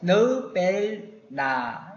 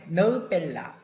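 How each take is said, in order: First: It is said unhurriedly, keeping a clear n sound. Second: It is said hurriedly, with n becoming l. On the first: The speaker calls it right. "너 뺄나 이렇게 약간만 조금 더 여유를 두시고" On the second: The speaker calls it wrong. "너무 급하게 너 뺄라 이렇게 하지 마시고"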